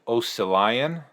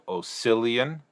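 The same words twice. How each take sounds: First: The stress is on the first syllable. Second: The stress is on the second syllable. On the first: "or is it Oscillion?" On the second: "traditionally in English you emphasize the second vowel sound, so Oscillion"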